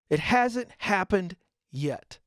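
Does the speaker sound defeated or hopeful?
defeated. It sounds flat and defeated, trailing off. It feels like a failure. The speaker calls it wrong. "It becomes a failure"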